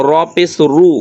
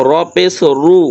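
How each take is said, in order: No difference in how they are said.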